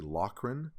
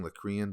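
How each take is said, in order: First: "Lochran" in two syllables, LOCK-run; corrected pronunciation. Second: "Locrian" said with an extra syllable, ending in "ee-an"; mistaken pronunciation. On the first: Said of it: "is how it's pronounced". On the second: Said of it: "I keep saying Locrian". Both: Shown as a demonstration.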